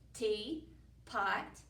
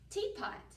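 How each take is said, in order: First: It is said as two separate parts. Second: It is said as one whole word.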